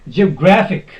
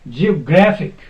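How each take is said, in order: First: The stress is on the third syllable. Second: The stress is on the third syllable.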